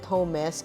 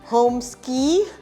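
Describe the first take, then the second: First: The name ends with an 'esk' sound. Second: The name ends with an 'ee' sound. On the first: The speaker calls it right. "for us we call it Homes" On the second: The speaker calls it wrong. "Some call it homeski"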